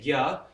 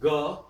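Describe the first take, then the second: First: It is said as g followed by ya. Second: It is said as a plain ga. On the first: "in Hindi we say gya" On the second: "Bengalis will say ga"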